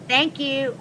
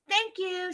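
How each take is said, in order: First: It is said in the speaker's ordinary voice. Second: It is said in a put-on imitating voice.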